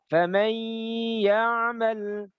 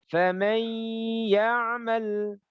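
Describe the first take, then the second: No difference in how they are said.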